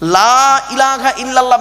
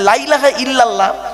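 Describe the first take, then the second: First: The vowel of the first word is drawn out. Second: The vowel of the first word is kept short. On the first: There is no god except God. The speaker calls it right. "লয়াকারে টান দেবেন" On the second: Surely there is a god besides God. The speaker calls it wrong. "লয়াকারে টান না দিলে কিরম মানেটা পাল্টে যায় দেখুন"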